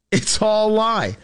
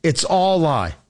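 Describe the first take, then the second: First: "all" stretched out slowly and leaned on; slow it down and hammer "all"; slow emphatic repeat. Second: Said in the usual way. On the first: Shown as a demonstration. Host repeating for listeners, slow and emphatic. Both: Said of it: "And tell your friends".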